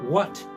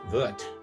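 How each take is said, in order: First: It is said with a standard English w sound. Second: It is said with a Swedish v sound.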